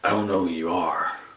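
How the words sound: It is said in a gravelly Snake impression.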